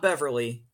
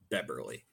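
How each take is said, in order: First: The middle consonant is a V sound. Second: The middle consonant is a B sound. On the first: The speaker calls it wrong. "Not Beverly" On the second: The speaker calls it right. "it sounds exactly how it's spelled. B-E-B-E-R-L-Y"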